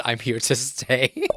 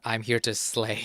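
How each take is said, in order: First: "I'm here to stay." said louder, landing hard on "stay" with a rise; "stay" pushed out louder, correcting the wrong guess; emphatic correction. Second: Said in the usual way. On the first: Shown as a demonstration. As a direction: set her straight: "I'm here to stay." with weight on "stay". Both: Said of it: "It's, "I'm here to stay".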